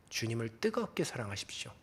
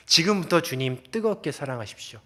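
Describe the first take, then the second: First: Hushed whisper, each word breathed; whispered plea. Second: Said in the usual way. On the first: Acted. Pastor whispers to the congregation, urging them to love God. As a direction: lean in and whisper it to them like a secret.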